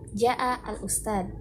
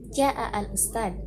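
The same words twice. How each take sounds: First: The phrase is said on a low pitch. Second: The same.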